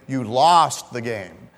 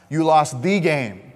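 First: The stress falls on the word 'lost'. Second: The stress falls on the word 'game'. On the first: The listener's bad actions are the focus. "there's an emphasis on your bad actions" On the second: The importance of this particular game is the focus. "it's a big game. You lost of all games to lose, you lost this game"

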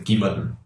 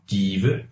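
First: The ending is shortened and run together. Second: Every syllable is said fully and carefully. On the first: This is how people actually talk casually. "If you're on the street, they just say" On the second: This is the formal textbook form. "would be the very book formal, very kind of syllable by syllable saying"

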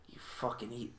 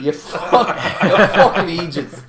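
First: It is said in the speaker's own accent. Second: It is said in a Scottish accent.

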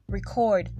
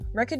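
First: The stress is on the second syllable. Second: The stress is on the first syllable. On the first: The act of recording something. "the act of making a record" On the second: Something that has been recorded. "is a noun or a song recorded"

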